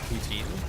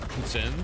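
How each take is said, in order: First: The word is said with an English pronunciation. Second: The word is said with a French pronunciation. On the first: "the English pronunciation is poutine" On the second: "that's called poutine"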